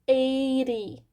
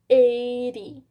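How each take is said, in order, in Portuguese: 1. A consoante do meio soa como um r rápido. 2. A consoante do meio soa como um r rápido.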